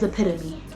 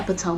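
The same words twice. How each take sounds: First: The word ends with a separate final syllable. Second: The word ends in one syllable, like tome. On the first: The speaker calls it right. "the word is epitome" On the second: The speaker calls it wrong. "not epitome"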